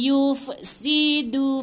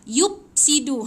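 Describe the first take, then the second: First: The consonant before 'sidu' is an airy f sound. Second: The consonant before 'sidu' is a p sound. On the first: The speaker calls it right. "Dia mesti fa, fa" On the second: The speaker calls it wrong. "fa tu tak boleh macam pa. ... Tak boleh"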